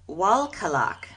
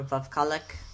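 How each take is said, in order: First: The word begins with a W sound. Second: The word begins with a V sound. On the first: "the answer is Walkalak" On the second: "with a Russian accent it would be Volf, you know, because they usually pronounce their W's as V's"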